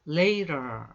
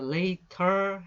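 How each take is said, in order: First: The middle consonant is a quick flap sound. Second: The middle consonant is a clear T sound. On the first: "later 이렇게 발음을 해요" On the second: "later 해도 틀리지 않지만"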